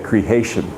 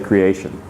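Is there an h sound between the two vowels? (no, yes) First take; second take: yes; no. First: An h sound is added between the vowels. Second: The two vowels are joined without an h. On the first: "a lot of people say creation, just to make it clear that there's an extra letter" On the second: "We don't add the H"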